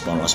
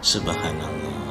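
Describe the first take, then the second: First: It is said quickly and slurred together. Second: It is said slowly and clearly with a breath. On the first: The reciter is hurrying to reach a count. The speaker calls it wrong. "cepat-cepat sponos" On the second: The reciter says each word properly. The speaker calls it right. "Yang benar itu subhanallah. Tarik nafas"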